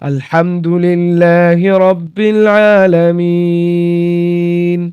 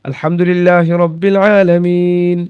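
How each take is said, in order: First: It is recited slowly, with a long final vowel. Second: It is recited faster, with a shorter final vowel. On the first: "আমি যদি এইভাবে পড়ি" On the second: "আর যদি আমি একটু গতিতে পড়ি"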